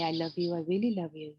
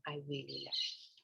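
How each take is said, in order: First: Tender self-love. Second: Much softer, almost breathed; soft near-whisper. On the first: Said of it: "And then you say". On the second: Telling herself in the mirror, very softly. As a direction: hush it to yourself tenderly. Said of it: "You say your name". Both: Shown as a demonstration.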